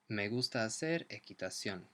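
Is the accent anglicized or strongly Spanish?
anglicized. It is said with a milder, less Spanish accent.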